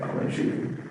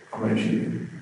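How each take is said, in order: First: Soft, toneless near-whisper; quiet monotone. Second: Flat, nonchalant threat; monotone. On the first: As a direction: drain every feeling out, hushed. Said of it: "a monotone voice, like". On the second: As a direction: say it like it means nothing. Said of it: "just nonchalant, a monotone voice". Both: Retold or imitated.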